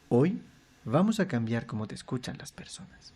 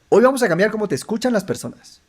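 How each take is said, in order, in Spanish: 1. La oración se dice lento. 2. La oración se dice rápido. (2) "rápido"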